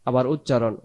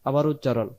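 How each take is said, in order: The two takes are said the same way.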